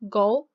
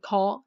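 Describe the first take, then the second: First: The first consonant has no puff of air. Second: The first consonant has a puff of air. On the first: The speaker calls it right. "Just like how you say in English, go ... no air" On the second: The speaker calls it wrong. "don't say go"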